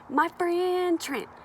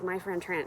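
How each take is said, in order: First: The phrase is said with a cool, stylish ring. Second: The phrase is said flatly, without any flair. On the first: The speaker calls it right. "It's my friend Trent" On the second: The speaker calls it wrong. "you can't say it like that because my friend Trent just doesn't sound cool"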